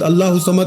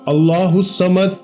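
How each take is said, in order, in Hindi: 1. इसे जल्दी बोला जाता है, शब्द आपस में मिल जाते हैं। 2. इसे धीरे बोला जाता है, हर शब्द अलग-अलग। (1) "बहुत सारे लोग भला कैसे पढ़ते हैं" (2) "एक एक लफ्ज अलग अलग करके समझाया है, इसी तरह पढ़ेंगे"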